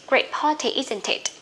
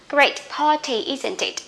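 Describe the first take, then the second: Both takes have the same delivery.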